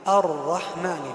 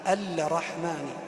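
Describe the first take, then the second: First: The L is silent; the doubled R follows directly. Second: An L sound is pronounced before the R. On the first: The speaker calls it right. "اللام الشمسية تكتب ولا تنطق... ندخل مباشرة على الراء المشددة" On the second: The speaker calls it wrong. "لا نقول كبعض الناس يقول الرحمن"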